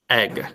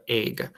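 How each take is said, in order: First: Careful short vowel in "egg", no glide; short e sound. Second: Minnesota accent. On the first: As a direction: EGG with an open "eh", as in "bed". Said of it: "it should sound more like egg". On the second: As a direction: EGG as "aig", Minnesota style. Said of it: "we have an accent in Minnesota". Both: Shown as a demonstration.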